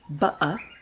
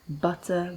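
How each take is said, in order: First: The middle consonant is a glottal stop. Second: The middle consonant is a clear t sound.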